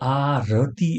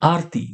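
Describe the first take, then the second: First: The r is followed by a full vowel. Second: The r is cut short with no vowel. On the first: The speaker calls it wrong. "એવું નથી કહેતા" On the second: The speaker calls it right. "ર નો ઉચ્ચાર ખૂબ જ ઝડપથી પૂરો થાય છે"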